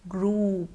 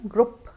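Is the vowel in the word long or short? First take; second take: long; short. First: The vowel is a long oo sound. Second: The vowel is short, not a long oo. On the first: The speaker calls it right. "Let's remember to use the long sound oo" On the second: The speaker calls it wrong. "This word is often mispronounced as group"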